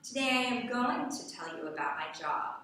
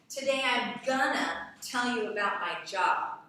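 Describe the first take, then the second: First: It uses the full forms I am and going to. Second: It uses the reduced forms I'm and gonna. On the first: The speaker calls it right. "taking it from gonna to going to" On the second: The speaker calls it wrong. "The word gonna"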